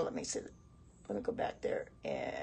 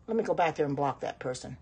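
First: "Let me go back there and" whispered under her breath; whispered aside. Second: Said in the usual way. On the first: Real, not acted. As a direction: whisper it to yourself while scrolling. Muttering to herself mid-stream.

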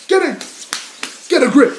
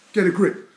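First: High, loud burst of self-scolding; shouted self-rebuke. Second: Said in the usual way. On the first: Pretend. Rapper breaking off his confession, shouting at himself. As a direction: yell to pull yourself together.

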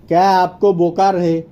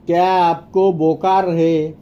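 First: Said in the usual way. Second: Teacher's measured repetition. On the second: Shown as a demonstration. Slower repeat for learners.

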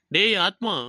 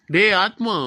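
First: Said in the usual way. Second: A firmer call with டேய் stressed and pushed out louder. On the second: Acted. Friend calls Atma a second time when he doesn't respond, louder call. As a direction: call him again to get his attention.

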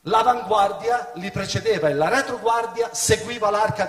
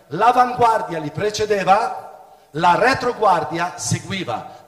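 First: Said in the usual way. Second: Louder, slow repeat stressing L'avanguardia and retroguardia; slow teaching emphasis on L'avanguardia and retroguardia; emphatic repeat. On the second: Shown as a demonstration. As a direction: hammer home L'avanguardia and retroguardia for the listeners.

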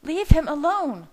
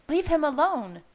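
First: Loud, high-pitched furious shriek. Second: High-pitched angry demand, short of a scream; exploding temper. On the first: Leah steps toward Bella, shrieking loudly. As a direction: shriek it at full anger. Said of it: "she shrieked". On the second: Leah orders Bella off Jake, angry. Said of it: "Leah's temper exploded". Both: A narrator's reading.

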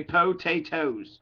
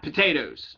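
First: Potatoes in three slow syllables, poh-TAY-tohz; careful pronunciation. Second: Potatoes said loosely as puh-TAY-duhz; incorrect casual pronunciation. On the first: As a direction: spell out potatoes slowly by sound, full "oh" at both ends. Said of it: "It's potatoes". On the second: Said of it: "it's also not potatoes or taters". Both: Shown as a demonstration.

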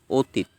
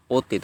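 First: অতীত starting with rounded "o", o-teet; correct pronunciation. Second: অতীত starting with open "aw", aw-teet; wrong pronunciation. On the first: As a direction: round the first vowel of অতীত to "o". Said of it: "অ এর উচ্চারণ ওকার হবে". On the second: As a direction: keep the first vowel of অতীত open. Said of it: "না, আমরা বলি অতীত". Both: Shown as a demonstration.

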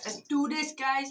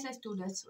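First: Hyped, a bit louder and higher; pumped up. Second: Softer, said to yourself; quiet. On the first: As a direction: psych yourself up for it. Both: Real, not acted. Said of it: "Right, let's brush my teeth".

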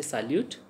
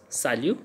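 First: "salute." with a sounded final T; wrong, T sounded. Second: "salu." ending on the vowel, no T; silent T. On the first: Teacher shows learners the mistake, T sounded in "salute.". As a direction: pronounce the T ending "salute.". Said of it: "we can't say salute". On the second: Teacher corrects learners' French, silent T in "salu.". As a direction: drop the T, end "salu." on u. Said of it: "T is silent". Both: Shown as a demonstration.

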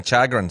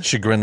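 First: "chagrin" misread as CHAG-rin, stress up front; mispronunciation. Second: "Chagrin" said as shuh-GRIN, the standard way; standard pronunciation. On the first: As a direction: say "chagrin" with a hard ch as in chat. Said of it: "I've been saying chagrin". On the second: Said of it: "but I've been saying chagrin". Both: Shown as a demonstration.

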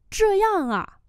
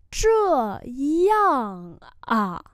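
First: Said in the usual way. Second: Drawn-out, firmly falling syllables; slow teacher's demonstration; slow model pronunciation. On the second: Shown as a demonstration. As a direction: say each syllable separately. Teacher repeats phrase slowly.

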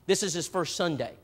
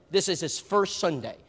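First: Said in the usual way. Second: Slower, leaning on "first" in "This is his first Sunday"; stress on first. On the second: Shown as a demonstration. Preacher stressing to the congregation that it's his "first" Sunday. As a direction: draw out and hit the word "first".

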